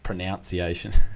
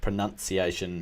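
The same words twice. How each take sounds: First: The second syllable sounds like 'noun'. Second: The second syllable sounds like 'nun'. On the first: The speaker calls it wrong. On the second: The speaker calls it right. "it should be a U"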